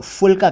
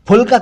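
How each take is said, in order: First: फुलका as "fulka"; mispronounced ph as f. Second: फुलका as "p-hulka"; aspirated ph. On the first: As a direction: start फुलका with an f. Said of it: "कई लोग फुलका कहते हैं". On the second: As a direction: pop the lips on फुलका. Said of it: "कहना चाहिए". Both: Shown as a demonstration.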